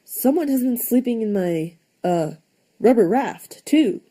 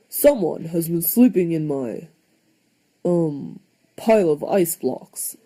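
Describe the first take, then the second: First: Higher, lighter mama bear voice; mama bear adding her complaint, higher. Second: A hint of a gruff papa bear; lightly voiced, mildly gruff papa; papa bear growling about his bed of ice. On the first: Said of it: "added Mama". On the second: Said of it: "growled Papa Bear". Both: A narrator's reading.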